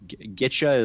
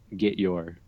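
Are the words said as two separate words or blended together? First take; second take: blended; separate. First: The two words blend into one reduced word. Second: The two words are said separately and fully. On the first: The speaker calls it right. "which I've learned is getcha is one word" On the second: The speaker calls it wrong. "It's not get your"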